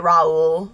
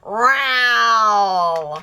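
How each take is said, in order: First: The name is said fully as 'Raul'. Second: The name is said like the word 'row'. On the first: This is the name said properly. The speaker calls it right. "Why was no one ever able to just say Raul?" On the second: This is how people on the show said the name. The speaker calls it wrong. "I was going to say it that way"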